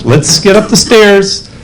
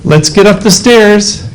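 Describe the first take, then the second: First: It is said in a soft, coaxing way. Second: The same.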